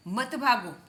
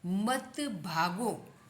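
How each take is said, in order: First: Put-on quicker, louder call to children; mock warning. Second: Drawn-out reading of the phrase; slow model. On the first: Acted warning to running children. (बच्चों को ज़ोर से टोकते हुए) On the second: Shown as a demonstration. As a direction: stretch it out for learners. Slow headword, later said as command. (धीरे-धीरे खींचकर पढ़ते हुए)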